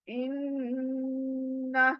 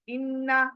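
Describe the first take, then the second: First: The double n is held with a nasal hum. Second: The double n is short with no nasal hum. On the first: The speaker calls it right. "हमें गुनगुनाना है इन्ना" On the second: The speaker calls it wrong. "हम क्या पढ़ते हैं इन्ना, तो गलत है"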